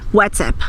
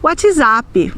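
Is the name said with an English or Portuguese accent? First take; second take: English; Portuguese. First: It is said with an English accent. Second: It is said with a Portuguese accent. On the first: The speaker calls it wrong. "nós nunca vamos dizer no Brasil WhatsApp" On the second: The speaker calls it right. "nós vamos dizer WhatsApp"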